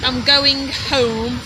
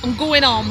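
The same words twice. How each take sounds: First: Going home said slowly and fully, H sounded; careful going home, every sound kept; standard pronunciation. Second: Going home run together as "gooin om"; Derbyshire dropped letters. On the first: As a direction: say home with a clear H. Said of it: "We don't say home". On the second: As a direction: drop the H of home, leaving "om". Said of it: "we drop letters". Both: Shown as a demonstration.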